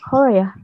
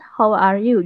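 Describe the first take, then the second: First: The greeting is squeezed down into two syllables. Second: Every word of the greeting is said in full. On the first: This is how people say it in Australia. "Di sini tuh" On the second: This is how Indonesians say it. "kita kan, "How are you?" gitu kan"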